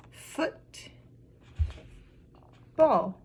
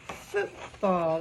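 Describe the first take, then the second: First: Syllable by syllable. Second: Said in the usual way. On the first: Shown as a demonstration. Teacher showing two syllables, broken apart. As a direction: hold a long gap between "Foot" and "ball". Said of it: "We heard". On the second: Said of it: "That is the word that we have".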